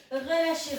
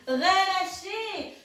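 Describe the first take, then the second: First: Said in the usual way. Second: Long stretched relâchez; drawn-out release cue. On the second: Shown as a demonstration. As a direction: drag out relâchez slowly.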